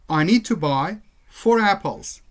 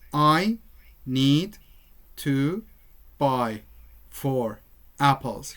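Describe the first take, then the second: First: The words are linked smoothly together. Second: The words are said separately, one by one. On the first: The speaker calls it right. "Rather, you say" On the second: The speaker calls it wrong. "You don't say"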